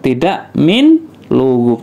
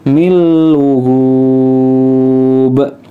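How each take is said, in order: First: The n is pronounced clearly before the l. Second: The n merges into a doubled l sound. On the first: The speaker calls it wrong. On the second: The speaker calls it right. "nunnya tidak dibaca, langsung masuk ke huruf lam"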